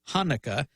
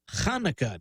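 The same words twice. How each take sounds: First: It begins with a plain breathy English h. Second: It begins with a throaty, rasping ch sound. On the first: The speaker calls it wrong. "not the voiceless glottal fricative h, like the English H" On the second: The speaker calls it right. "the first sound in that word is the guttural ch"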